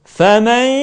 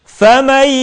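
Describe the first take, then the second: No difference in how they are said.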